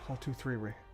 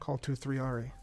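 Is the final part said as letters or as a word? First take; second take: word; letters. First: The ending is said as one word, Ray. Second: The ending is said as two letters, R E. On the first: The speaker calls it wrong. "Hopefully I'm saying that right" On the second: The speaker calls it right. "that sounds better"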